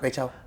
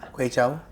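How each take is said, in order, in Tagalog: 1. Mas mabilis itong sinabi. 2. Ang parirala ay sinabi sa karaniwang bilis.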